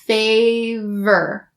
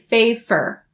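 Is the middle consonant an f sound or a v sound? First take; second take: v; f. First: The middle consonant is a voiced v sound. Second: The middle consonant is a voiceless f sound. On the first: The speaker calls it right. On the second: The speaker calls it wrong.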